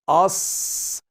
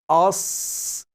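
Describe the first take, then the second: First: The sound is heavy, with a full mouth. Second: The sound is heavy, with a full mouth.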